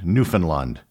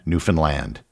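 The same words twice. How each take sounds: First: The ending rhymes with the word unfund. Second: The ending rhymes with the word understand. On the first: The speaker calls it wrong. "It is not pronounced as it would be in the rhyme, "Unfund Newfoundland."" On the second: The speaker calls it right. "The key was the simple rhyme, "Understand Newfoundland.""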